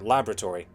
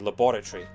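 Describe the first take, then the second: First: It is said with an American pronunciation. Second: It is said with an English pronunciation. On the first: "Americans pronounce it laboratory" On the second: "we say laboratory"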